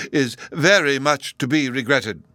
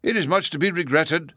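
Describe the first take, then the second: First: Very stressed, louder; strengthened remark. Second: Mild. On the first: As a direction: press on very to sound firmer. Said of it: "he strengthened the remark". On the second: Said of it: "the professor mildly replied". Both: A narrator's reading.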